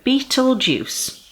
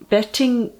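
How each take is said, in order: First: The word begins with a long 'beet' sound. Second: The word begins with a short 'bet' sound. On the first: The speaker calls it right. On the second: The speaker calls it wrong.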